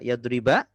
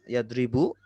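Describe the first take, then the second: First: The word ends with a short a vowel. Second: The word ends with a short u vowel. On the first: The verb is in the accusative (nasab) case. "akhirnya fathah" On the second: The verb is in the nominative (rafa) case. "akhirnya dhammah"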